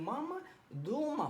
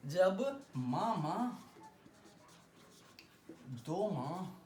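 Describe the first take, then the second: First: मामा दो माँ with the pitch rising on दो माँ; rising question tune. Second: मामा दो माँ said with the pitch falling at the end; falling statement tune. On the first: Teacher shows students how to ask मामा दो माँ as a question, rising tune. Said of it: "दो माँ में अगर ऊपर जा रहा है". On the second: Teacher demonstrates the statement form of मामा दो माँ with falling tune. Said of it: "voice को हम लो कर रहे हैं". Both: Shown as a demonstration.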